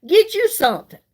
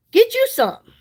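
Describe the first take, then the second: First: Said in the usual way. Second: Playful nudge to buy; urging. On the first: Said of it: "repeated for emphasis". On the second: Shown as a demonstration. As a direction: Get you something said higher and pushier. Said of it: "repeated higher, more insistent".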